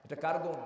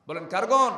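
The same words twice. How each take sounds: First: Said in the usual way. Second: Louder, higher, stress on গুণ; loud call for response. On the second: Shown as a demonstration. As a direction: call out "গুণ" to the crowd for an answer.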